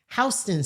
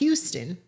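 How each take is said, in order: First: It is said the local street-name way. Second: It is said the way the spelling suggests. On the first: The street is named after a man called Houston. "but Houston Street" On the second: This is how the spelling looks to most people. "which looks like Houston"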